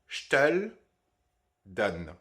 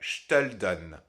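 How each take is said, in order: First: Each word is pronounced separately and fully. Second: The words run together with vowels dropped. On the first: "en séparant les deux" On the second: "une fois qu'on a imbriqué les deux ensemble"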